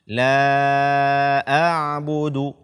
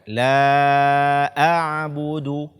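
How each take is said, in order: No difference in how they are said.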